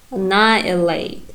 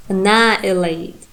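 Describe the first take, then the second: No difference in how they are said.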